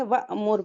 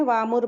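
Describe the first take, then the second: First: वामुर with an abrupt catch on the hamza before मुर; वा, sudden stop, then मुर in वामुर; jerked hamza. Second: वामुर run together with no catch; wrong smooth hamza. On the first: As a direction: break वामुर with a sharp glottal stop. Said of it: "झटके से पढ़ते हैं". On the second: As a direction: glide through वामुर without a glottal stop. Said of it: "वामुर नहीं पढ़ेंगे". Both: Shown as a demonstration.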